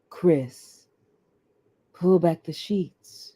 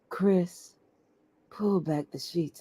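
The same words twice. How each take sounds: First: It is said in a sensual, romantic way. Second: It is said in a plain, unromantic way.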